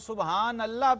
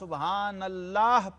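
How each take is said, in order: First: The word Allah is cut short, incompletely said. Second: The word Allah is said fully and completely. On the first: It brings no blessing and is disrespectful. The speaker calls it wrong. "अल्लाह कहा तो नामुकम्मल रह जाएगा" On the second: It earns the reward. The speaker calls it right. "जब कहना है अल्लाह कहना है"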